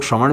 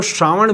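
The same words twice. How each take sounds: First: श्रवण with a short first "a"; short-vowel variant. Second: श्रावण with a long, open first "aa"; long-vowel variant. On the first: Host noting what some people call Sawan, short-vowel श्रवण. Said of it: "कुछ लोग श्रवण भी कहते हैं". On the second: Host giving viewers another name for Sawan, long-vowel श्रावण. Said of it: "सावन को श्रावण भी कहते हैं". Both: Shown as a demonstration.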